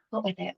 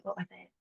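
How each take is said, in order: First: Said in the usual way. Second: Much softer, half under the breath; muttered to herself. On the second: Real, not acted. Muttering to herself while trying to remember. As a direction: drop away to yourself as you search.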